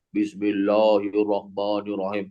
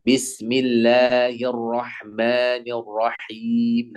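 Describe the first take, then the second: First: Bismillahirrahmanirrahim with heavy o sounds, lower; thick Indonesian recitation. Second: Very slow, light bismillahirrahmanirrahim; thin correct recitation. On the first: Retold or imitated. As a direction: recite bismillahirrahmanirrahim dark and rounded. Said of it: "orang Indonesia itu agak susah tipis". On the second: Shown as a demonstration. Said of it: "Harusnya ditipiskan".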